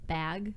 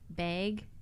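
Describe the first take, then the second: First: The vowel is said the general way. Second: The vowel is said the Wisconsin way. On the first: "when it's bag" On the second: "Wisconsin people say bag"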